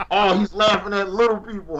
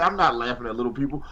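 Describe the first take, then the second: First: Higher-pitched mock accusation; mock accuser. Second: Said in the usual way. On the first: Co-host imitating a viewer who faults his laughing, mock accusation. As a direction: mimic someone accusing him, pitch lifted. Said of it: "if you try to be like". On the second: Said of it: "I say".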